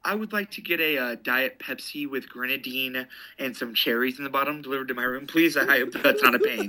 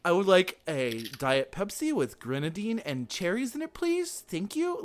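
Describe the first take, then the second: First: Polite order, lifting at the end into a laugh; lightly put-on businessman ordering room service; would-be businessman. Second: Mock kid voice, climbing very high by the end; slow, over-polite youngster placing an order; teen playing grown-up. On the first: Shown as a demonstration. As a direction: play at being a formal grown-up caller. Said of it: "tried to sound like I was a businessman". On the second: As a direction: imitate a teenager trying to sound adult. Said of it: "like a fifteen-year-old trying to act like a grown-up".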